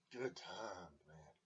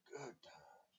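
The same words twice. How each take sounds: First: Said in the usual way. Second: "Good times" fluisterend herhaald, stemloos; whisper. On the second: Real, not acted. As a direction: fluister het na, voor jezelf. Repeats phrase, then whispers it.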